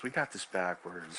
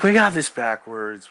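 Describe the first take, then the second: First: Second take dropped way down, almost to himself; softer take. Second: First take said out loud and firm; louder take. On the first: Repeating the point to himself, quiet and low. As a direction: repeat it much softer, pressing got lightly. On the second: Talking to a friend about a girl, said loud and insistent. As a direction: say it out loud, pressing the word got. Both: Retold or imitated.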